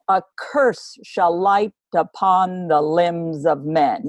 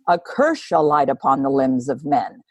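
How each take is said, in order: First: It is read with a strong regular beat. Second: It is read naturally without a marked beat.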